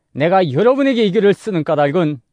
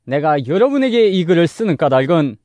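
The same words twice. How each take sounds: The two takes are said the same way.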